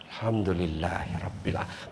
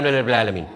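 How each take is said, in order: First: The phrase is said slowly and clearly. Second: The phrase is said quickly and slurred. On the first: The words reach the heart. The speaker calls it right. "Metok tua tuh ketita sampai di hati itu" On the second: The words are said without feeling. The speaker calls it wrong. "Tapi kalau bilang jaki saja"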